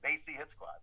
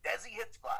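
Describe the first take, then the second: First: Desi sounds like 'they see', with an s. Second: Desi is said with a z sound in the middle. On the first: The speaker calls it right. "It's like they saying the words they see" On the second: The speaker calls it wrong. "there's no Z in this name"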